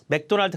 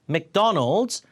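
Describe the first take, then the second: First: All syllables are said evenly with no strong stress. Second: The second syllable is clearly stressed. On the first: The speaker calls it wrong. "맥도날드가 아니라" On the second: The speaker calls it right. "맥도날드 강세 G예요"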